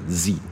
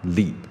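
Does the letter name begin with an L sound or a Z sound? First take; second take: Z sound; L sound. First: It begins with a buzzing Z sound. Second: It begins with an L sound, tongue flicking out. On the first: The speaker calls it right. "反正就是“z”" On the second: The speaker calls it wrong. "它是一个L 音啊，它不是一个Z 音啊"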